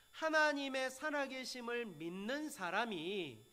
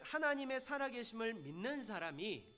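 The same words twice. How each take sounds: First: "하나님의 살아계심을" drawn out slowly and firmly; slow down and weight each word of "하나님의 살아계심을 믿는 사람이"; emphatic restatement. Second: Said in the usual way. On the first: Shown as a demonstration. ("하나님의 살아계심을"을 천천히 힘주어 강조) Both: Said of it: "잘 들으셔야 됩니다".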